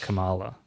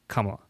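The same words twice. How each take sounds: First: The stress is on the second syllable. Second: The stress is on the first syllable. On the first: The speaker calls it wrong. "rather than" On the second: The speaker calls it right. "more of a like front-loaded kind of emphasis"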